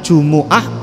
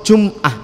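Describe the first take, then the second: First: The m is followed by an u vowel. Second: The m is followed by no vowel. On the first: "mimnya di dhammah"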